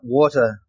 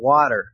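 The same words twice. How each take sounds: First: It is said with a New Zealand pronunciation. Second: It is said with an American pronunciation. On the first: The speaker calls it right. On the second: The speaker calls it wrong.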